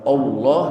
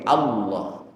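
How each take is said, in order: First: The first vowel sounds like o. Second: The first vowel sounds like a. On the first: The speaker calls it wrong. "bukan o" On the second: The speaker calls it right. "dibaca a"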